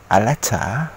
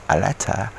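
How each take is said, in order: The two takes are said the same way.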